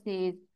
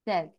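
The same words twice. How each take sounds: First: The vowel sounds like the one in 'say'. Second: The vowel sounds like the one in 'set'. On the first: The speaker calls it wrong. "हम आमतौर पर इसको कहते हैं से और सेज, वो गलत होता है।" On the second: The speaker calls it right. "जो सही तरीका है दैट इज सेज।"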